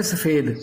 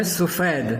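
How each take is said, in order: First: سفید said as safed, with a short a after the s; the everyday wrong سفید, safed; common mispronunciation. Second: سفید said slowly as sufaid, with a u after the s; correct pronunciation. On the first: Urdu teacher showing students the common wrong سفید. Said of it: "عام طور پہ کیا کہتے ہیں". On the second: Urdu teacher correcting students to sufaid. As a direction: give سفید carefully as sufaid. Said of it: "سفید نہیں ہے". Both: Shown as a demonstration.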